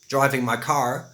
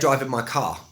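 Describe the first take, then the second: First: The r at the end of car is pronounced. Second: The r at the end of car is silent. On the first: "where an American would say car" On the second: "you don't really pronounce the R's"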